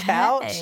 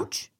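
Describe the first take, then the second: First: The vowel rhymes with 'cow'. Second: The vowel rhymes with 'coo'. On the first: The speaker calls it wrong. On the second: The speaker calls it right.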